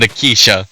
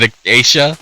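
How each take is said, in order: First: "Akeisha" said as uh-KEE-sha with a falling end; trying another pronunciation. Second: "Acacia" said as uh-KAY-sha, rising like a question; trying a pronunciation. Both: Shown as a demonstration. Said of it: "how do you pronounce it?".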